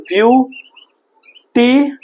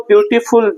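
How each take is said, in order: First: ब्यूटीफुल very slowly in three parts, ब्यू, टी, फुल; syllable by syllable. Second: Said in the usual way. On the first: Shown as a demonstration. Teacher showing three syllables to students, ब्यूटीफुल drawn apart unit by unit. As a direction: break ब्यूटीफुल into three units with long gaps. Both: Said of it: "ये तीन syllable का word है".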